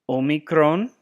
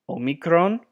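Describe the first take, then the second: No difference in how they are said.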